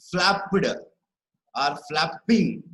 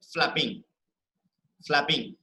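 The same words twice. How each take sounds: First: Flapped and flapping broken up, "flap-PED", "flap-PING"; stress on second part. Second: Flapping with "flap" stressed, "ing" falling away; weight on the start of flapping; stress on first part. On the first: Teacher shows wrong flapped and flapping, second part stressed. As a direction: slowly hit the endings of flapped and flapping. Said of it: "We don't pronounce it as". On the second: Teacher models flapping correctly, stressed on first part. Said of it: "We are stressing on the first part". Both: Shown as a demonstration.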